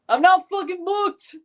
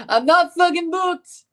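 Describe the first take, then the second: First: High-pitched, badly faked Scottish accent; hammed-up bad Scottish accent, laughing into it; a clumsy stab at a Scottish brogue; horrible Scottish accent. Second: High, slow, badly faked Scottish accent; a botched, high Scottish brogue. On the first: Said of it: "With a horrible Scottish accent". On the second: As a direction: drag out a terrible Scottish impression. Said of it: "That was horrible".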